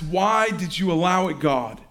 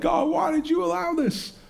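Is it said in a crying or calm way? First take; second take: calm; crying. First: It is said calmly, without crying. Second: It is said in a crying, tearful way.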